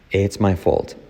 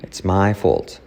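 No difference in how they are said.

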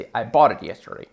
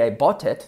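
First: "bought it" run together with a tapped T; real English linking. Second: "bought it" quick, every T pronounced; strong T. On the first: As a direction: soften the T of "bought it" to an R. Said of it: "En inglés real". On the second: Teacher shows the possible but unnatural "bought it", hard Ts. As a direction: release hard separate Ts in "bought it". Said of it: "Se podría decir". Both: Shown as a demonstration.

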